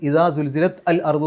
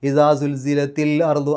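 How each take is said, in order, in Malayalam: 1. അവസാനത്തെ t ഒരു പ്രത്യേക al-ന് മുമ്പ് നിൽക്കും. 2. ബന്ധിപ്പിക്കുന്ന i സ്വരം വാക്കുകളെ സുഗമമായി ചേർക്കുന്നു. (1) "അവിടെ പാരായണം മുറിഞ്ഞു പോകും ചെറുതായിട്ടെങ്കിലും" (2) "ആ ഒഴുക്കിൽ അങ്ങ് പാരായണം ചെയ്യാൻ പറ്റും"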